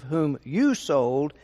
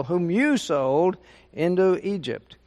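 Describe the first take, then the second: First: Said in the usual way. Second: "you" pushed out as the key word in "Whom you sold into Egypt"; stress on you. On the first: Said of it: "I don't think he put the emphasis on you". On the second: Shown as a demonstration. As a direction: lean on "you" to point the blame. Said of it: "but we will".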